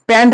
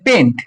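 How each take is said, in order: First: The vowel sounds like 'a', as in 'pant'. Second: The vowel sounds like 'e', as in 'pent'. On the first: The speaker calls it wrong. "প্যান্ট বলবি না কেউ" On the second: The speaker calls it right. "এটাকে বলে পেন্ট"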